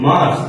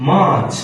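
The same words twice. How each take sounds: First: "মার্চ" with a sounded r, like mars; learners' wrong pronunciation. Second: "মার্চ" drawn out as maach, r silent; correct pronunciation. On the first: Teacher quoting how learners say March, wrong pronunciation. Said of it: "আপনি করে কি". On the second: Teacher correcting learners' March, correct pronunciation. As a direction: stretch the vowel of "মার্চ" and drop the r. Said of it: "না রে". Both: Shown as a demonstration.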